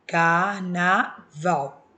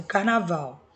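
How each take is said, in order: First: Carnaval stretched out very slowly, syllable by syllable. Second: Said in the usual way. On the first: Shown as a demonstration. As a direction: separate car-na-val slowly for the class. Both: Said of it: "Quando eu separo a sílaba".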